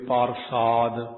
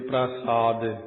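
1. p ਅਤੇ r ਵਿਚਕਾਰ ਇੱਕ ਪੂਰਾ ਸਵਰ ਹੈ। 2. r ਸਿੱਧਾ p ਨਾਲ ਜੁੜਿਆ ਹੋਇਆ ਹੈ। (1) "ਪੱਪੇ ਦਾ ਰਾਰਾ ਪੂਰਾ ਬੋਲ ਕੇ" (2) "ਪੱਪੇ ਦੇ ਰਹਿਤ ਪੈਰ ਵਿੱਚ ਰਾਰਾ ਹੋਣ ਕਰਕੇ ਪ੍ਰਸਾਦ ਵੈਸੇ ਇਸ ਤਰ੍ਹਾਂ ਬਣਦਾ"

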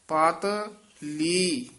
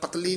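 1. ਸ਼ਬਦ ਛੋਟੇ ਵਿਰਾਮ ਨਾਲ ਵੰਡਿਆ ਜਾਂਦਾ ਹੈ। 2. ਸ਼ਬਦ ਇੱਕੋ ਇਕਾਈ ਵਜੋਂ ਬੋਲਿਆ ਜਾਂਦਾ ਹੈ। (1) "ਇੱਥੇ ਵਿਸਰਾਮ ਲੈ ਦੇਣਾ" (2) "ਪਤਲੀ ਨਹੀਂ ਕਹਿ ਦੇਣਾ"

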